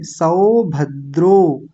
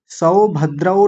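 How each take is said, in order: First: सौभद्रो slowly, ending on closed ओ; corrected form. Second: सौभद्रौ ending in औ instead of ओ; wrong ending. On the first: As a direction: say सौभद्रो with ओ at the end. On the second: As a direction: show the mistake सौभद्रौ. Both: Shown as a demonstration. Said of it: "सौभद्रौ नहीं कहेंगे".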